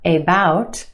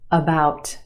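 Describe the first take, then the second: First: The first syllable has a full, unreduced vowel. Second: The first syllable has a quick reduced schwa vowel. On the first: The speaker calls it wrong. "It's not about" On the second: The speaker calls it right. "The first syllable is your schwa"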